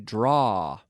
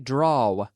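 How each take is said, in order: First: The W sound is silent at the end. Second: The W sound is pronounced at the end. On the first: The speaker calls it right. "with another silent W, ... but we say draw" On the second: The speaker calls it wrong. "we don't say draw"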